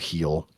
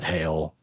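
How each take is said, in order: First: The vowel sounds like the one in 'feel'. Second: The vowel sounds like the one in 'bail'. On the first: "or Heel" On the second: "not Hail"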